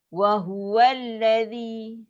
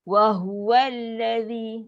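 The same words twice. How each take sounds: No difference in how they are said.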